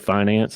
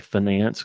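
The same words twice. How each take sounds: First: The stress is on the first syllable. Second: The stress is on the second syllable. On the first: It is the ordinary way to say it. "They don't say finance" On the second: It is how business-school graduates say it. "they say finance because it rhymes with finesse"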